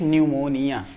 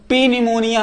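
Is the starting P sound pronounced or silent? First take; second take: silent; pronounced. First: The word begins directly with an N sound. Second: The word begins with a spoken P sound. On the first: The speaker calls it right. "सिर्फ न्यूमोनिया" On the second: The speaker calls it wrong. "इसको पी न्यूमोनिया हम नहीं कहेंगे"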